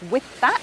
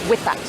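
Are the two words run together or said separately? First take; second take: separate; run together. First: The two words are said separately, each given length. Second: The two words are squeezed together into one beat. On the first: The speaker calls it wrong. "So instead of with that" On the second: The speaker calls it right. "the two words that we push together are with and that"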